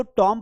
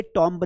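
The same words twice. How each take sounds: First: "टॉम" with silent b; correct pronunciation demo. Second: "टॉम्ब" with the b sounded; wrong pronunciation demo. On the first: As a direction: end "टॉम" on the m. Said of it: "उसको टॉम पढ़ेंगे". ("टॉम" में बी silent) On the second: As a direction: close "टॉम्ब" on an audible b. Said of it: "टॉम्ब नहीं पढ़ेंगे". ("टॉम्ब" में बी का उच्चारण) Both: Shown as a demonstration.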